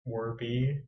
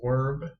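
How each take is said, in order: First: The name has two syllables, ending in 'ee'. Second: The name is one syllable with no final vowel. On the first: This is how most other people say the name. The speaker calls it wrong. "almost everyone I've asked pronounced it Werby" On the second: This is the intended pronunciation of the name. The speaker calls it right. "It's it's Werb"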